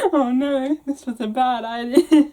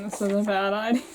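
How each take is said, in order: First: Said through giggles; amused self-mocking aside; laughing. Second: Said in the usual way. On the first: Real, not acted.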